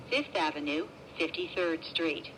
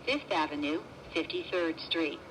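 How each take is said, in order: Both takes have the same delivery.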